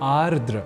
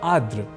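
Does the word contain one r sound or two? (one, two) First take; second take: two; one. First: Both r sounds are pronounced. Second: One of the r sounds is dropped. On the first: The speaker calls it right. "जबकि शुद्ध रूप है आर्द्र" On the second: The speaker calls it wrong. "बोल जाते हैं आर्द्र या आर्द्र"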